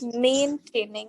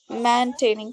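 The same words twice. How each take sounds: First: The first syllable sounds like "main". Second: The first syllable sounds like "man". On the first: The speaker calls it right. "It is coming out as main. ... break it like this" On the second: The speaker calls it wrong. "because if you say man, so it will sound something like maintaining"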